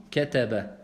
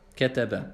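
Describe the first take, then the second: Both takes have the same delivery.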